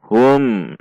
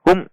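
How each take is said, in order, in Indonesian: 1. Huruf m dilepas dengan halus tanpa sentakan. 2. Huruf m disentak dan dihentikan secara mendadak.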